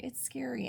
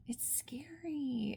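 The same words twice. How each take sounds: First: Said in the usual way. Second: Breathy whisper, high and slow; hushed whisper of dread; hushed scary. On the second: Real, not acted. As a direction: whisper it like a secret fright. Whispering about a scary plot.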